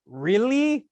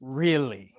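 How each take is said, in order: First: Higher, mock-incredulous Really?; Really? lifted high in doubtful surprise; surprised really. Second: Lower, flat falling Really?; a dry, unconvinced echo; Really? dropped low and falling, knowing; sceptical really. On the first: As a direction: mimic the audience's disbelief. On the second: Retold or imitated. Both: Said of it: "For everybody in the room who went".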